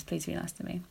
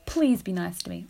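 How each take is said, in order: First: Quietly sincere, much softer; mean it, say it softly; a soft, earnest request to listeners; sincere plea. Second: Playful plea. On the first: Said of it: "No, I'm serious". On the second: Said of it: "I'm just kidding". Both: Real, not acted.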